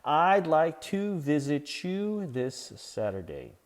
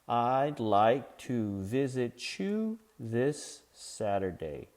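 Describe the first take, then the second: First: It is said fast. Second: It is said slowly.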